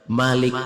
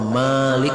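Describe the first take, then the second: First: The first vowel is said short. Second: The first vowel is said long.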